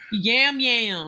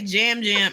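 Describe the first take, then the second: First: The name starts with a Y sound. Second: The name starts with a J sound. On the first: The speaker calls it right. "his name is definitely Yam Yam" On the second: The speaker calls it wrong. "Why did I say Jam Jam?"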